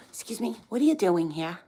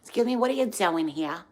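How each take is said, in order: First: Put-on a light Jewish New Jersey accent, nosy; mock the Jersey Jewish neighbor; lightly voiced nosy Jersey Jewish lady. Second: Put-on a touch of Jewish New Jersey accent; lightly put-on Jersey Jewish neighbor lady. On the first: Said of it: "Jewish and then New Jersey, it's the worst accent ever". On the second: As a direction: imitate the nosy Jersey neighbor. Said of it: "it's the worst accent ever".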